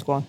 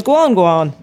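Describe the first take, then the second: First: Said in the usual way. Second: Louder mock crowd call of GUAN, GUAN; cheering on. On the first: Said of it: "but his name's Guan". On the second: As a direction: call GUAN, GUAN out like everyone egging him on. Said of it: "So everyone goes".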